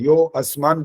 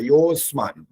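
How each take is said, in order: First: The 'a' is pronounced as a separate sound. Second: The 'a' merges into a lengthened 'yo'. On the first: The speaker calls it wrong. "यो अस्मान तो बोलना ही नहीं होता" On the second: The speaker calls it right. "बस ऐसा करेंगे तो ठीक हो जाएगा"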